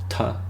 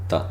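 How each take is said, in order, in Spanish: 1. La t se hace con la lengua en la encía de arriba. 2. La t se hace con la lengua en los dientes. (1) "en inglés, por ejemplo, es alveolar" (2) "la T en castellano es dental"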